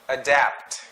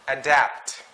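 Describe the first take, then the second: Both takes have the same delivery.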